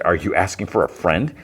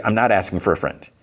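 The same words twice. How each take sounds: First: "friend" rising into a question; lightly retold query, lifted at "friend"; probing question. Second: "not" stressed, ending on a fall; retold denial leaning on "not"; firm denial. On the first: [name] questions [name]'s hypothetical, rising at the end. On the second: [name] answers [name]'s question, stressing "not" in denial.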